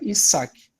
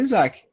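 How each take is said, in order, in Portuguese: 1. A consoante do meio tem som de s, sem vibração. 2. A consoante do meio tem som de z, com vibração. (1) "Com S mesmo" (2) "Entre um S, entre duas vogais, tem som de Z"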